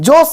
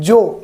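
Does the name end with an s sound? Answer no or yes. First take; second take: yes; no. First: The name ends with an s sound. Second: The name ends without an s sound. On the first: The speaker calls it wrong. "জোস না" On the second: The speaker calls it right. "Actually এটা উচ্চারণ হবে জো"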